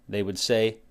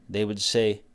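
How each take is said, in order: No difference in how they are said.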